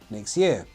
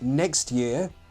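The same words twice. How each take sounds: First: The final T of 'next' is dropped. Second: The final T of 'next' is pronounced.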